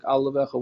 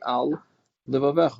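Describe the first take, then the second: First: The words run together quickly as one word. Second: A short pause separates the two words. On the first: The speaker calls it wrong. "if you say it too fast, it sounds like al levavecha, one word" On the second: The speaker calls it right. "It should be al levavecha"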